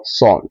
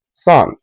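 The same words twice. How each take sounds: First: Son said sawn, rounded o; wrong o sound. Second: Son said sahn, open ah. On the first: Teacher showing the wrong son, rounded o. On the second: Teacher giving the right son, open ah. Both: Shown as a demonstration. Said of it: "and not son".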